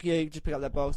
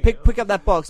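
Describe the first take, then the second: First: Softer murmured aside to Kenji; quiet aside. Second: Louder barked order at the movers; bossy order. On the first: Telling Kenji what to say, softly under the breath. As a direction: drop your voice, telling a friend. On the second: Ordering movers about loudly, a bossy command. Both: Retold or imitated. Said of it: "I was saying it to Kenji".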